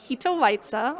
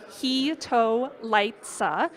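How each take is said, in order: First: The word is said at a normal pace. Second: The word is said slowly and deliberately.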